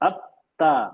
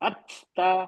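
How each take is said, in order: First: The t is released without any breathy puff. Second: The t is released with a breathy puff of air. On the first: The speaker calls it right. "तो हम इसको हम्स नहीं करेंगे। अत्ता इस तरह पढ़ रहे हैं" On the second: The speaker calls it wrong. "हम्स तो है ना अच-ता, अच-ता हम्स हो रहा है, लेकिन गलत हो गया।"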